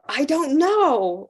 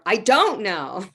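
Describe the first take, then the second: First: The stress falls on the word know. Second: The stress falls on the word don't. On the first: The speaker has no understanding at all. "I don't know or understand or anything" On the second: The listener wrongly believes the speaker knows. "You think I know, but I don't know"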